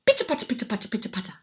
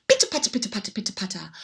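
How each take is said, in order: Both takes have the same delivery.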